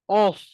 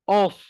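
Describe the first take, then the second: First: The vowel is rounded, sounding like o. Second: The same.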